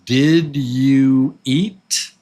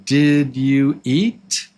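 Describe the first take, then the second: First: The words are said separately and clearly. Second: The same.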